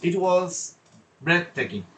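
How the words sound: There is a short pause before 'breathtaking'. The speaker calls it right. "pause slightly before a big word to create suspense"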